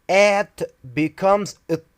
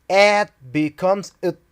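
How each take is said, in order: The two takes are said the same way.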